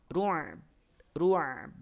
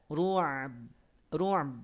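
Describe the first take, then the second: The two takes are said the same way.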